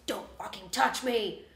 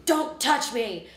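First: Slow, deliberate warning snap; snapping at him. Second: Higher, louder and very slow, each word hammered; the final warning, now really fed up; louder angry repeat. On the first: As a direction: push him away with the words. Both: Retold or imitated. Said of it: "bitchy and snapping at everything".

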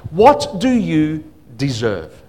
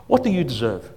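First: What do you deserve drawn out slowly; slow emphatic question. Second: Said in the usual way. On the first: Shown as a demonstration.

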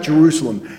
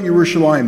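First: Said in the usual way. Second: Yerushalayim said the Hebrew way, yeh-roo-sha-LAI-eem; Hebrew pronunciation. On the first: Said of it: "They would talk about Yerushalayim". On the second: Shown as a demonstration. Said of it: "They would talk about Jerusalem".

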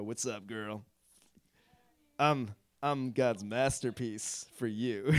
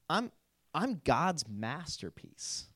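First: Mock a guy hitting on a girl; cheesy pickup line. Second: Said in the usual way. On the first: Guy using the verse to hit on a girl, low mock smooth line. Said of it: "walk around to every girl we meet and go". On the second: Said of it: "That's who we are according to this verse".

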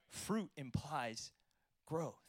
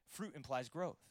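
First: Fruit implies, pause, then growth, said slowly; slow preacher emphasis with a pause before "growth"; slow emphatic delivery. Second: Said in the usual way. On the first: Shown as a demonstration. Repeats phrase slowly for emphasis.

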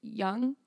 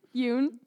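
First: Jung said as "Yung"; first variant. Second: Jung said as "Yoon"; second variant. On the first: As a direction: say Jung with an "uh" vowel. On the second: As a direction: say Jung with a long "oo". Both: Shown as a demonstration. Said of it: "Tomato, tomato".

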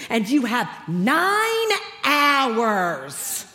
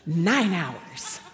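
First: NINE hours stretched very slowly with a laugh; slow stressed nine hours. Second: Said in the usual way. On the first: Acted. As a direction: drag out "nine hours" in amused disbelief. Stressing the long golf outing.

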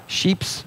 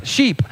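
First: "Sheeps?" whispered with an added s, questioning; wrong plural sheeps. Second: "Sheep." firm, higher, no s; corrected plural. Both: Shown as a demonstration. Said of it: "Sheep dies".

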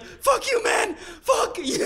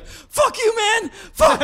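First: High mock yell of an overwhelmed fan; imitated yelling. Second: High, loud ecstatic yell at a concert; wild fan shouting at the stage; imitated yelling. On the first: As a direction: shout it up high, overcome with joy. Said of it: "He was literally like". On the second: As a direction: scream it like a fan overwhelmed at a show. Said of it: "He really started yelling".

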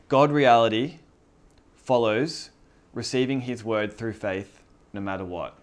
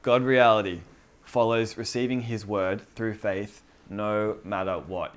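First: GOD reality punched loud, rising; emphatic first read. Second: Slow deliberate recitation. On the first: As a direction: hammer home the big idea. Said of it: "write this down if you're taking notes". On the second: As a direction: spell it out slowly so they can write it down. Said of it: "One more time. From the top". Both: Shown as a demonstration.

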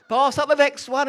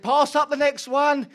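First: Loud, high repeated call down; panicky call. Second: High, loud, slow call for the next one; panicky call. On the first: Asking his wife for the next plank while frightened, loud high call. Calling down from scaffold, scared. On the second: Calling down to his wife from wobbly scaffolding, loud panicky call. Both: Retold or imitated.

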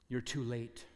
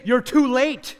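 First: Put-on preacher to the anxious young man, low and soft; quiet, dismissive reply. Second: Louder and higher, hammering it home; preacher thunders at the young man, loud and high; loud preaching retort. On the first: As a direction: say it low and soft, turning away. Preacher answers seeker quietly. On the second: Retold or imitated. Preacher's retort repeated loudly.

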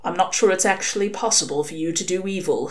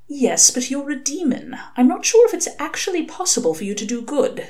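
First: Sarcastic. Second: Lightly voiced fussy angel, earnest and higher; an angel patiently explaining, a touch prim. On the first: A narrator's reading. Demon teasing the angel about doing evil, sarcastic. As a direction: needle him with mock doubt. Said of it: "said Crawley sarcastically". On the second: Angel Aziraphale gently lecturing the demon, earnest.

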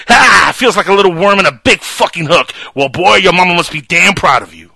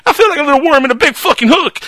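First: Loud, higher taunting villain voice; loud taunting villain impression; movie villain quote. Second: High, loud snarling villain voice; loud mocking villain impression; movie villain quote. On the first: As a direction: sneer it down at the boy. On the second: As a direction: growl it like a gloating screen villain. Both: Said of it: "Love that scene".

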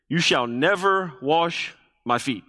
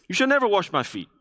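First: Slow, with stress on never; emphatic refusal. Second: Higher, stress on never; emphatic, means business. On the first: Peter refusing Jesus, slow and emphatic. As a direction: lean hard into never, slowly. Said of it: "Once again, in the emphatic". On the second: Peter insisting to Jesus, higher and emphatic. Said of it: "He means business here". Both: Retold or imitated.

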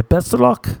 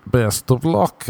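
First: Much higher, bright sing-song; chirpy best of luck. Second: Slow best of luck. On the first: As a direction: toss it off like a cheery farewell. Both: Shown as a demonstration. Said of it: "That's what I like to say".

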